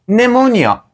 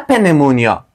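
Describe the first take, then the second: First: The word starts with an n sound. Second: The word starts with a sounded p. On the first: The speaker calls it right. "نمونیا ما ایره تلفظ خواهیم کرد" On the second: The speaker calls it wrong. "نه پنمونیا"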